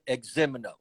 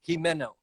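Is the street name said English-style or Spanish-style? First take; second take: English-style; Spanish-style. First: The name is said in a local English style. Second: The name is said in a Spanish style. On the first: This is how everyone in the city says it. The speaker calls it wrong. "they pronounce it Eximino, and that's incorrect" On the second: This is the original way the name is meant. The speaker calls it right. "the way you should say it is Jimeno"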